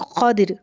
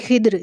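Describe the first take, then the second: First: An a vowel, then an i before r. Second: An i vowel, then no vowel before r. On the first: "ख़ा के ऊपर ज़बर और दौद के नीचे ज़ेर" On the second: "ख़ा के नीचे ज़ेर और दौद के ऊपर जिज़म"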